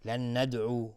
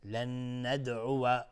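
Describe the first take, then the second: First: "لن ندعو" ending in u without wa; mistaken dropped fatha. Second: "لن ندعو" slow, n held, ending "uwa"; fatha on final waw. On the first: Teacher repeats the common mistake, "لن ندعو" without final wa. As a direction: close "لن ندعو" on the u vowel. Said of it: "ممکنه بعضی تلفظ کنن". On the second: Teacher gives the correction, "لن ندعو" drawn out to final wa. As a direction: open the end of "لن ندعو" into wa. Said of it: "اینجا واو فتحه داره". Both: Shown as a demonstration.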